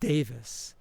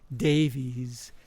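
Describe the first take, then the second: First: The name ends with a short 'vis' sound. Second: The name ends with a long 'veez' sound. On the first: This is how the name's owner says it. The speaker calls it right. "he pronounces it Davis" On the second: This is how most people say the name. The speaker calls it wrong. "people refer to the last name as Davies"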